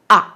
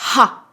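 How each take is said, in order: First: The syllable starts with no h sound. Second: The syllable starts with an h sound. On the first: The speaker calls it wrong. "C'est pas a" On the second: The speaker calls it right. "c'est bien ha"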